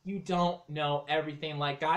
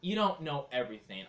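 First: Shouting. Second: Said in the usual way. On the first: Acted. Repeats louder in the quarrel.

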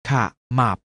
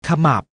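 First: ขะหมับ split into ขะ and หมับ; short ขะ, clear gap, then หมับ; syllable by syllable. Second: Said in the usual way. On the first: Shown as a demonstration. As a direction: sound out ขะหมับ in two beats. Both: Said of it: "อ่านว่า".

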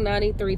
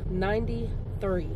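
First: Said in the usual way. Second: "Ninety-three" slowed right down; emphatic repeat. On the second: Real, not acted. Granddaughter marvelling at grandmother's age, slow emphatic "Ninety-three". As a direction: stretch out each part of "Ninety-three" for weight.

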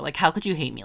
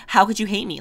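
First: Said in the usual way. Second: Higher and louder, playfully outraged; hammed-up disbelief at a hater; How could you hate me, thrown out in mock offence; mock indignant. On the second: Mock outrage at a video disliker.

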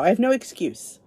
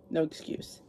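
First: Said in the usual way. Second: Softly breathed under her breath, almost unvoiced; whispered afterthought to herself; quiet repeat. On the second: Shown as a demonstration. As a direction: say it again to herself, hushed.

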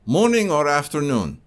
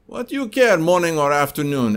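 First: Put-on calm customer question in a Russian accent. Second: High, loud, exasperated Russian salesman; irritated Russian accent. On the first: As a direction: ask it evenly in a Russian accent. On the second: Retold or imitated. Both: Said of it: "if you didn't like my Russian accent".

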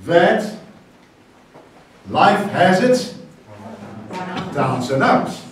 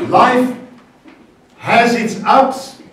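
First: Reversed proverb, slow then falling; slow reversed saying. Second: Life high and loud, has its ups stretched slow; the usual saying, slow and raised. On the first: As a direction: turn the saying around slowly. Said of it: "we are gonna say this morning". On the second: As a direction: lead the congregation slowly. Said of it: "we usually say". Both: Shown as a demonstration.

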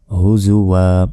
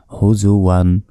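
First: হুজুওয়া ending in a one-alif long আ, no ন; pause form. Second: হুজুওয়ান read with its final ন; plain হুজুওয়ান, ending আন; tanween form. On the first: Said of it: "দুই জবর ওয়াকফা করলে একটি জবর উচ্চারণ হয় না". (থামার রূপে হুজুওয়া, এক আলিফ টেনে) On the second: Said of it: "এখানে থামলে". (হুজুওয়ান, শেষে আন) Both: Shown as a demonstration.

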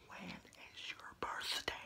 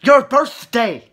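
First: Slow, very quiet whisper; hushed examiner's whisper; whispered question. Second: "Your birthday" loud and slow; loud, slow, exasperated repeat; speaking up. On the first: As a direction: whisper it slowly, barely audible. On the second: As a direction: repeat it loudly for someone who can't hear. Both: Acted. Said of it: "Speak louder".

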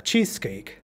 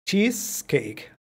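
First: Cheesecake, Cheese stressed, falling low; stress first part. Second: CHEESEcake, the Cheese stressed, said very slowly; stress first part. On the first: Teacher repeats with stress on first word. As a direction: punch Cheese, let cake drop. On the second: Teacher stresses first word of compound for students. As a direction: lean hard on Cheese in Cheesecake. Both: Shown as a demonstration. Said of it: "Más fuerza. La primera palabra".

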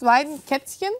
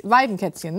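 First: Weidenkätzchen? asked with a rising tune; unsure question. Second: Weidenkätzchen said with a settled falling tune; confirming. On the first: Unsure guess at the word. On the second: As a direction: land Weidenkätzchen firmly with a fall. Confirms the word once told. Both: Real, not acted.

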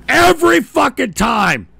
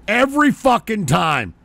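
First: The same words yelled louder, fed up; angry shout. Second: Said in the usual way. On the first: Real, not acted. Host fed up with failed calls, shouting. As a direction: blow up on the repeat.

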